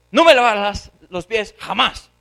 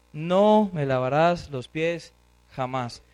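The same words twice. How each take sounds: First: Loud, scolding outburst; angry refusal. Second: Slow, weighty "No", "jamás" set apart and lowered; emphatic refusal. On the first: Peter scolds Christ over the foot washing, angry refusal. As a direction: forbid it loudly, hitting "jamás". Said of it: "Le responde así". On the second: Peter refuses to let Christ wash his feet, emphatic refusal. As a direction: stretch "No", then drop firmly on "jamás". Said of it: "la forma más fuerte de expresar". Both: Acted.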